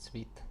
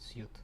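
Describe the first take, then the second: First: The word is said like 'sweet'. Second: The word is said like 'suit'. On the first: The speaker calls it right. "because sweet, like, you know, test suite" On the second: The speaker calls it wrong. "not suit"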